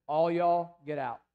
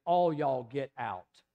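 First: A loud sharp All y'all, then get out; commanding shout. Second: Slow Tennessee drawl with the stress on all. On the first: Retold or imitated. Jesus ordering the mourners out of the house, loud command. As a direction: bark it out as a command to clear the room. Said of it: "and he says". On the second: Shown as a demonstration. Preacher showing how folks in Tennessee would say it, slow Tennessee drawl. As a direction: drawl All y'all get out slowly, Tennessee style, leaning on all. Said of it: "In Tennessee, Walter Hill, we would say".

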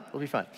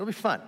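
First: Said in the usual way. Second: "It'll be fun" pitched much higher, bright and coaxing; upbeat coaxing. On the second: Acted. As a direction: sell the idea eagerly on a high "It'll be fun".

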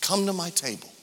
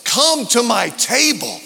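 First: Much softer, near-hushed repeat; soft echo. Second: Higher, louder, full preaching voice; preached invitation. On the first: Pastor repeating Jesus' invitation to the church, hushed. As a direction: let the invitation sink in gently. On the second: Pastor voicing Jesus' invitation to the church, proclaimed loud. Preached line, then quiet echo. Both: Acted.

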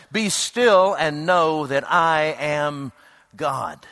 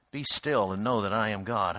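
First: "Be still" drawn out slowly and weighty; slow solemn quote. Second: Soft repetition. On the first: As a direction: lean on "still", savour each word. Quoting the psalm slowly. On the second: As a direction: lower and softer "Be still and know that I am God". Repeating the psalm softly. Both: Acted.

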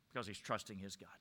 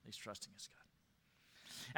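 First: Said in the usual way. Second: Slow hushed whisper of the same words; a slow reverent whisper. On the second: Shown as a demonstration. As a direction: breathe it slowly, barely audible. Repeats the line, then whispers it.

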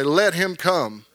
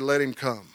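First: Slow, drawn-out lead line for the church to repeat; slow call and response. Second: Soft, calm invitation; gentle Jesus. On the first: Shown as a demonstration. Preacher leads congregation to repeat the verse, slow and drawn out. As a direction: lead it slowly so all can echo. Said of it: "Everybody say it". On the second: Retold or imitated. Jesus stops and gently calls the blind man, soft and calm. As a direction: let him come, quietly and kindly. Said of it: "and he said".

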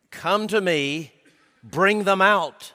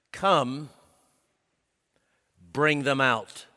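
First: "bring them out" said slower and louder, "out" hit hard; forceful command. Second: Said in the usual way. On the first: Shown as a demonstration. Preacher voicing God ordering Moses, louder, pressing command. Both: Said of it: "Literally, by means of the verb stem".

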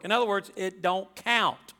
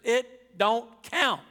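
First: Said in the usual way. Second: "It don't count" drawn out slowly, each word weighted; slow down and hammer "count" in "It don't count"; emphatic preacher's punchline, spaced out. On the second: Shown as a demonstration. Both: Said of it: "I just use that for emphasis".

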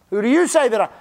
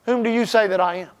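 First: "you" leaned on, the rest even; stress on you. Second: Said in the usual way. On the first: Shown as a demonstration. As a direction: point "you" straight at the listener. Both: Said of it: "Not who does Pastor Rusty say".

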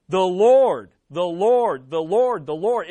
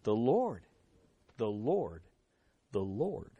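First: "the Lord" repeated in quick succession, first LORD loudest; emphasized repetition. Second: Soft, low "the Lord", spaced out with pauses; hushed repetition. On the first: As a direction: punch "Lord" hard, then let each repeat ease off. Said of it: "It's emphasized". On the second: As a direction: let each repeat sink lower and quieter, reverently. Same answer repeated, now hushed. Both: Shown as a demonstration.

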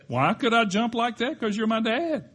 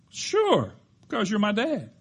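First: Put-on calm boy again. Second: Put-on calm boy. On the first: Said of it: "the boy". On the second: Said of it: "responded with remarkable calmness".

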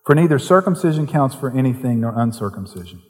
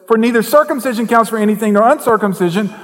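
First: Said in the usual way. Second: Verse proclaimed high and loud in a fervent preaching voice; preached verse. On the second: Shown as a demonstration. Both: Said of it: "same verse read again".

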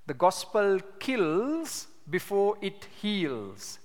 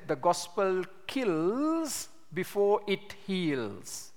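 First: Slow again, kills leaned on; restated slowly with weight on kills; repeated for emphasis. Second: Slow and weighty, stress on kills; each word laid down slowly, kills hit hardest; a solemn quoted proverb, drawn out; slow quoted maxim. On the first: Shown as a demonstration. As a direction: drive the saying home, slow and heavy. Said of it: "a very useful statement to keep in mind". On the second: Retold or imitated. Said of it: "Charles Spurgeon said".

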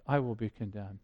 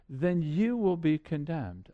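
First: Much lower and softer, turned inward; quiet self-admission. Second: Said in the usual way. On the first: Acted. Preacher admitting his own guilt to the church, hushed and low. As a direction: drop it down and say it to yourself. Preacher applies the verdict to himself.

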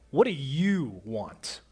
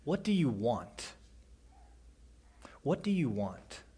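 First: Slow, blunt "What do you want?" with a falling end; curt, impatient demand; wrong tone. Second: Softer, gentle "What do you want?" with a falling end; caring, quiet ask; tender question. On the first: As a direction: ask it coldly, as if put out. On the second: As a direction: ask it kindly, inviting an answer. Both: Shown as a demonstration. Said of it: "It's not said in that tone at all".

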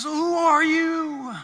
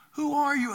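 First: Slow, loud, much higher cry of awe; Moses calling out. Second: Higher, quicker repeat of the question; Moses asking again. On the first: Moses crying out to the voice in the bush, loud and slow. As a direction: call out into the fire, stretched and astonished. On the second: Moses asking the bush a second time, higher and wondering. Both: Acted.

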